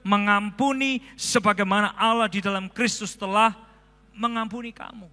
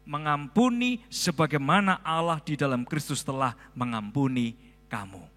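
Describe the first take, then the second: First: It is read in an even louder voice. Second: It is read at a normal volume.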